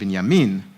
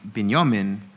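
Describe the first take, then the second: First: It is said with an Israeli Hebrew pronunciation. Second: It is said with an Ashkenazi Hebrew pronunciation. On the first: The speaker calls it right. "would be in the Hebrew" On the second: The speaker calls it wrong.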